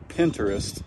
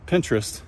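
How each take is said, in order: First: The syllables are said separately and distinctly. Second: The syllables are run together smoothly. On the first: "put that down below with a couple of hyphens in it" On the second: "leave the hyphens out"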